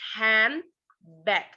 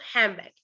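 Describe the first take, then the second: First: The middle consonants are kept distinct. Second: The middle consonant merges into the next sound. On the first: "it's no pronounced like handbag" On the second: "Now it's pronounced handbag, like the same sound"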